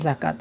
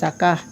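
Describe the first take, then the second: First: The word ends with a t sound. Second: The word ends with an h sound. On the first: The speaker calls it right. "এখানে তাই পড়ব, জাকাত এভাবেই পড়ব" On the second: The speaker calls it wrong. "হা এর মতো উচ্চারণ হতো জাকাহ"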